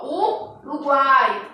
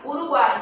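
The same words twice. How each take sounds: First: "Uruguai" drawn out slowly syllable by syllable, U-ru-guai; teacher slowly separating syllables; slow syllable demo. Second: Said in the usual way. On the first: Shown as a demonstration. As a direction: stretch out "Uruguai" to show the triphthong. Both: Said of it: "olha só".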